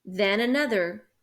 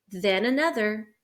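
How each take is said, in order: Both takes have the same delivery.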